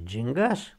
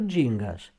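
First: The stress is on the last syllable. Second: The stress is on the first syllable. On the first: The speaker calls it right. "cu accent pe A" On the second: The speaker calls it wrong. "deci nu gingaș"

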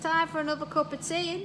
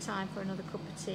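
First: It is said at a louder volume. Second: It is said at a normal, quieter volume.

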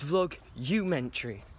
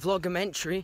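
First: An extra u syllable comes after vlog. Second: The word goes straight from vlog into mentary. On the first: The speaker calls it right. "it's vlog-umentary. So I've been saying it wrong" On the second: The speaker calls it wrong. "it's not vlogmentary"

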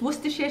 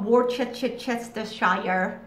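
First: It is said the British way, syllables shortened. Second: It is said the American way, syllables spelled out. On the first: The speaker calls it right. "It's Worcestershire sauce" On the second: The speaker calls it wrong. "not Worcestershire. That's not how you say it"

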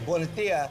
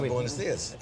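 First: The final s sounds are left out. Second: The final s sounds are pronounced. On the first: "some people will say buenos dias" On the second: "instead of buenos dias"

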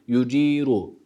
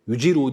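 First: The vowel after the j is lengthened. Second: The vowel after the j is short. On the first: The speaker calls it right. "cimi bir elif miktarı da uzatıyoruz" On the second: The speaker calls it wrong. "Yuciru değil"

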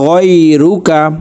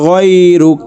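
First: The word ends with a final vowel sound. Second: The word ends on a consonant, vowel dropped. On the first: The phrase continues without stopping. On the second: The reciter stops at this word.

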